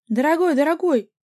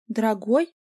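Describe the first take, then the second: First: High, loud wailing on ДОРОГОЙ; keen over him; wailing lament. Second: "Дорогой?" with a sharp questioning rise, louder; incredulous echo. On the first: The girlfriend wails over her dear boyfriend, high and loud. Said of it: "прочитала подружка". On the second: Vika echoes the word in outraged disbelief, rising. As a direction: throw the word back in disbelief. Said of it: "завопила Вика". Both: A narrator's reading.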